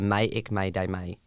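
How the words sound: The repeated word has an 'i' vowel. "You could also pronounce like"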